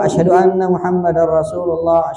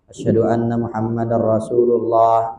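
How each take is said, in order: First: It is said in a loud, full voice. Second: It is said in a soft, low voice. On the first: "diulangi dengan suara yang keras" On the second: "dengan suara yang pelan begitu"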